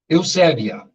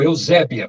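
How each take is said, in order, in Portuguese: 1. A palavra é dita de um jeito menos brasileiro. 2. A palavra é dita de um jeito brasileiro.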